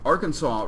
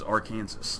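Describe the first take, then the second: First: It is said with a final 'saw' sound. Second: It is said as spelled, ending in 'Kansas'. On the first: The speaker calls it right. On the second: The speaker calls it wrong.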